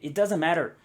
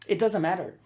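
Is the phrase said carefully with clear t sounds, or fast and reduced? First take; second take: reduced; reduced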